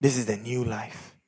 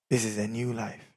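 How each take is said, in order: Both takes have the same delivery.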